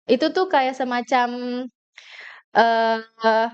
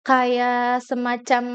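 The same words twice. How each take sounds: First: Drawn-out hesitant filler; filler hesitation demo. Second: Stretched, slow hesitant filler; filler hesitation demo. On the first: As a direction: stall on the filler deliberately. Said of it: "kayak aku tadi tuh". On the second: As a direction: drag the filler out on purpose. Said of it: "filler words". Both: Shown as a demonstration. Speaker showing the audience what filler words sound like.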